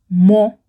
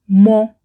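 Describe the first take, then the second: First: The word has its pronunciation used before nouns. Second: The word has its pronunciation used before nouns.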